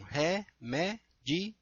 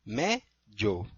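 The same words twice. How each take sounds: First: Remédio split very slowly, re-mé-di-o; Remédio separado em sílabas bem devagar; dictionary syllables. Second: Remédio run together as re-mé-djo, three syllables; Remédio como na fala, paroxítona; casual speech form. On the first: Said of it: "Como que eles separam?". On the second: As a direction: say Remédio the everyday way, last syllables merged. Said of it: "na fala fica parecendo que é paroxítono". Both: Shown as a demonstration.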